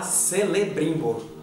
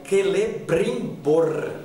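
First: The name begins with a soft S sound. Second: The name begins with a hard K sound. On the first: The speaker calls it wrong. "nada de falar Celebrimbor" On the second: The speaker calls it right. "o C tem som de K... Por isso é Celebrimbor"

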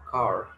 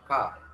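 First: American accent, with the R clearly pronounced. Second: British accent, with the R almost silent.

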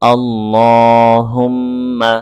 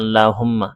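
First: The 'l' sound is heavy and thick. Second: The 'l' sound is light and thin. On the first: The speaker calls it right. "আল্লাহ মোটা করে পড়তে হবে" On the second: The speaker calls it wrong. "আমরা অনেকেই পড়ি"

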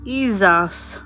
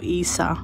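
First: The word ends with a z sound. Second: The word ends on a vowel, no z.

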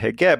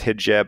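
First: It is said the Egyptian Arabic way. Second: It is said the Standard Arabic way. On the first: "but in Egypt it's a hijab" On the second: "you would pronounce that hijab, I guess, in proper Arabic"

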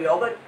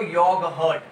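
First: It is said quickly in a Western accent. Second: Each sound is said slowly and clearly. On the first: "ये लोग क्या fast English बोलता है, मुंह टेढ़ा कर योगर्ट" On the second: "साफ साफ बोलोगे एक एक अक्षर तो योगर्ट"

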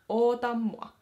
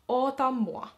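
First: The phrase is said in a shortened form. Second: The same.

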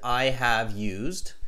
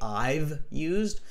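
First: The words I have are said in full. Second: The words I have are contracted to I've. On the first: It sounds formal and shows grammar clearly. The speaker calls it right. "I am not contracting the I have" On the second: It sounds informal. The speaker calls it wrong. "so I don't say I've used"

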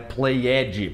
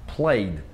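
First: The ending is said as an extra syllable. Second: The ending adds no extra syllable. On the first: The speaker calls it wrong. "não é played" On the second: The speaker calls it right. "não, played"

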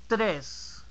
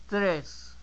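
No difference in how they are said.

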